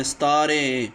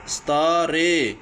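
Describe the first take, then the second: First: Said in the usual way. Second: ستارے said very slowly, vowel stretched; drawn-out vowel demo. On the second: Shown as a demonstration. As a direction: sound out ستارے slowly for kids so the اے vowel is heard. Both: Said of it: "اے کی آواز آ رہی ہے".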